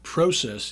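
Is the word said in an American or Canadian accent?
Canadian. It is said in a Canadian accent.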